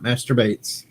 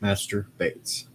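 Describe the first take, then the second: First: The two words run together as one word. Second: The two words are said separately with a break. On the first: It sounds like a crude word. The speaker calls it wrong. "Not Master Bates" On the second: It is a title followed by a surname. The speaker calls it right. "That's Master. And then Bates"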